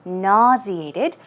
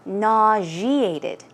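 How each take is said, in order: First: "Nauseated" with a z, nah-zee-ay-tid, slowly; z pronunciation. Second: "nauseated" with zh, nah-zhee-ay-tid, slowly; zh variant. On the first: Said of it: "I say nauseated". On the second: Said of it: "some people say nauseated". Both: Shown as a demonstration.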